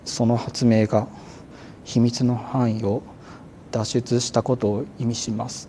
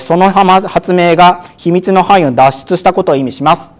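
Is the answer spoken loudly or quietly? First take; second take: quietly; loudly. First: It is spoken quietly with low energy. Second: It is spoken loudly and clearly. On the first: The speaker seems unsure of the answer. The speaker calls it wrong. "普通のテンションでね、あのちょっとあのゆく喋るとどうなるか" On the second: The speaker sounds confident in the answer. The speaker calls it right. "声を大きくしてください。こんな感じで"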